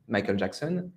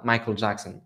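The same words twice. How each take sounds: First: the name said the French way, close to English; French-accented name. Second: the name with English vowels, open "Jack" and dark l; English pronunciation. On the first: Teacher giving the everyday French version, French-accented. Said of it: "plus ou moins fidèle à la prononciation anglaise". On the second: French teacher contrasting the English sound, English pronunciation. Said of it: "fidèle à la prononciation anglaise". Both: Shown as a demonstration.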